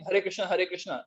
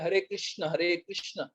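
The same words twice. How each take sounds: First: Krishna is said thinly and lightly. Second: Krishna is said fully and heavily. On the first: The speaker calls it wrong. "Instead of saying" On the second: The speaker calls it right. "कृष्ण जो पतले हैं उनको मोटा बना दिया"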